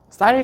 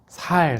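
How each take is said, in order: First: The word starts with a tense s sound. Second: The word starts with a plain s sound. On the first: The speaker calls it right. "쌍시옷 발음" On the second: The speaker calls it wrong. "살, 살 그래요"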